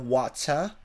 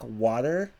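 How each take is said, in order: First: It is said in a British accent. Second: It is said in an American accent. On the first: "they say water, wat, or rather water" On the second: "instead of saying something like water"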